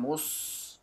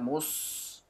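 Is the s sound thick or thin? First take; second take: thick; thick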